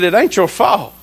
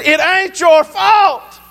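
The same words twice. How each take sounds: First: Lower-pitched, matter-of-fact retold reassurance; mild reassurance. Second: High, slow, drawn-out retold insistence; emphatic insistence. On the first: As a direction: gently retell letting Daddy off the hook. First reassurance to upset father. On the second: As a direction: insist over his objection, stretching each word. Insists again after father objects.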